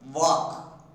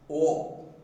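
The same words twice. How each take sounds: First: The vowel sounds like a long A. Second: The vowel sounds like an O. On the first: The speaker calls it wrong. "we pronounce this word as walk" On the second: The speaker calls it right. "it should be pronounced as walk"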